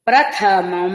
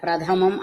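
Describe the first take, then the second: First: The middle consonant is said with a breathy aspiration. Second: The middle consonant is said without any aspiration. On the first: The speaker calls it right. "ప్రథ ధ పలకండి" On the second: The speaker calls it wrong. "అనకండి"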